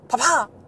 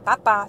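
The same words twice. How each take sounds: First: One syllable is stressed, in an English-sounding accent. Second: Both syllables get equal weight, with no stress. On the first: This is how a foreign narrator says it. The speaker calls it wrong. "personne ne dit papa comme ça" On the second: This is how French speakers say it. The speaker calls it right. "on n'accentue pas les syllabes, il n'y a pas d'accent tonique"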